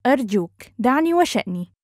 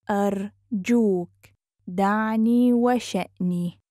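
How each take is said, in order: First: Quick, flowing and joined up; fast model sentence; natural speed. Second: Measured, careful teaching pace. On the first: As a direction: run the phrase together fluently. Teacher repeats phrase at speed. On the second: Teacher repeats phrase slowly joined. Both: Shown as a demonstration.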